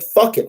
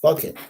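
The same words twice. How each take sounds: First: "Fuck it" thrown out high and loud; mock angry outburst. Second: Said in the usual way. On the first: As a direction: hit "Fuck" hard as a fed-up quarterback. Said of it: "He said". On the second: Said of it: "He's like".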